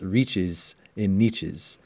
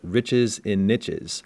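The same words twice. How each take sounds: First: Niches is pronounced in a fancy, high-class way. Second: Niches is pronounced in an ordinary, everyday way.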